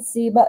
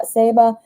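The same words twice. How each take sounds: First: Seba said with a long EE first, SEE-buh; first vowel of Seba as in "see". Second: Seba said with an AY first, SAY-buh; first vowel of Seba as in "say". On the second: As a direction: try Seba with "say" as the first syllable. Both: Shown as a demonstration. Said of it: "name I'm probably saying wrong".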